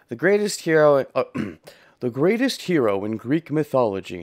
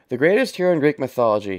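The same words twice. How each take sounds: First: It is said in a deep, manly narrator voice. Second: It is said in a wimpy, ordinary narrator voice. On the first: "I wasn't doing a manly narrator voice for this game" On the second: "I get to do a wimpy narrator voice. I get to do my voice"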